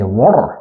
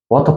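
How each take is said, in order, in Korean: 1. T는 부드럽고 R은 굴려서 발음해요. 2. T는 또렷하고 강하게 발음해요. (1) "리을 발음이 엄청 굴리잖아. 거기다가 T 발음이 좀 약해지거든" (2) "영국식에서는 예를 들면 이제 T 발음이 굉장히 강하죠"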